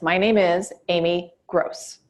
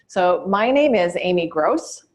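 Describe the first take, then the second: First: A pause, then the last name is punched firmly. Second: The last name sounds uncertain, like a question. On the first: The speaker sounds sure and worth knowing. The speaker calls it right. "Now here's the difference" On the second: The speaker seems unsure of themselves. The speaker calls it wrong. "we'll say it as if we're asking a question"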